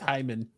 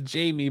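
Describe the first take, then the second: First: The name is pronounced the Spanish way. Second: The name is pronounced the English way.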